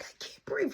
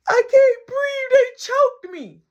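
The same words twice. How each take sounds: First: Soft, voiceless strained whisper; mock breathless whisper; stifled gasp. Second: Loud, high, slow crying wail; hammed-up tearful cry; mock bawling. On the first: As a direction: squeeze it out as if smothered. Imitates boy held down, muffled. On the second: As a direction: wail the accusation like a sobbing child. Boy wails accusation to nana.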